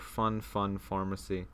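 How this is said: It is said with English-style pronunciation. "if you want to pronounce it more like an English person would"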